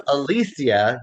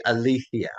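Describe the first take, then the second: First: Said in the usual way. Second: "Alicia" with TH for the c; Castilian pronunciation. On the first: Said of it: "So instead of Alicia". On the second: Shown as a demonstration. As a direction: lisp the c in "Alicia", Castilian style. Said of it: "pronounce it like a T H".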